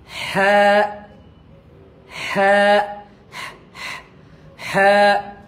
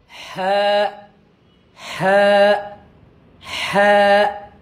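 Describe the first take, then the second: No difference in how they are said.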